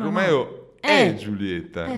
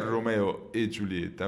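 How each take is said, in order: First: The middle 'e' is stressed and open. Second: The middle 'e' is light and unstressed. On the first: Romeo is Juliet. "dove l'accento... Accento, sì, sulla E fa la differenza" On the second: Romeo and Juliet. "che però non è Romeo e Giulietta"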